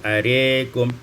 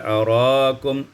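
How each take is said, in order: First: The vowel after the r tilts toward e. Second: The vowel after the r is an open a.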